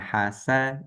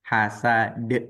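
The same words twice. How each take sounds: First: The word ends cleanly on the final consonant. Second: The word ends with an extra short vowel. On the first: The speaker calls it right. "huruf dal mati" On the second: The speaker calls it wrong. "bukan hasad. Nah, kalau de berarti dia ada e-nya"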